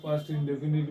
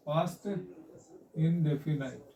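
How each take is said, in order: First: "इंडेफिनिट" ending in a short i, like "nit"; indefinite as "इंडेफिनिट". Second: "इंडेफिनाइट" ending in a long eye-t sound; indefinite as "इंडेफिनाइट". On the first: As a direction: say "इंडेफिनिट" with a short final vowel, no eye sound. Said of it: "कुछ लोग ... इंडेफिनिट भी कहते हैं". ("इंडेफिनिट" के अंत में छोटी इ से "निट" बोलें) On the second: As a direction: say "इंडेफिनाइट" with the last syllable like "night". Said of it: "past इंडेफिनाइट भी कहते हैं". ("इंडेफिनाइट" के अंत में "नाइट" बोलें) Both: Shown as a demonstration.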